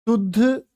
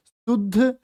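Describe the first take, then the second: No difference in how they are said.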